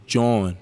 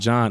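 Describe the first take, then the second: First: It has the vowel of 'jaw', spelled jawn. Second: It sounds like the ordinary name John. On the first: The speaker calls it right. "Like J A W N" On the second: The speaker calls it wrong. "It's not John"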